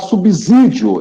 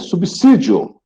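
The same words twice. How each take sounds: First: The middle consonant sounds like a z. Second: The middle consonant sounds like an s. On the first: The speaker calls it wrong. "eu vejo muita gente falar subsídio" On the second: The speaker calls it right. "é subsídio"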